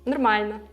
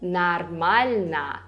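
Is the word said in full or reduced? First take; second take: reduced; full. First: The unstressed vowels are reduced, nearly disappearing. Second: All syllables are pronounced clearly.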